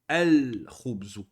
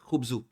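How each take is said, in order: First: The word is said with an L sound before it. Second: The word is said with no L sound before it. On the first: The speaker calls it right. "le lem ici on le prononce" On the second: The speaker calls it wrong. "On dit pas"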